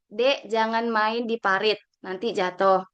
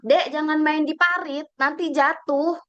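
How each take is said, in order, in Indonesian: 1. Diucapkan dengan nada tenang dan normal. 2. Diucapkan dengan suara keras dan bernada tinggi.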